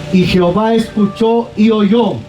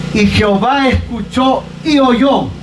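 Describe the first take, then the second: No difference in how they are said.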